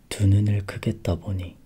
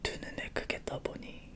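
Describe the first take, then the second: First: It is said too loudly. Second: It is said at a softer, normal volume.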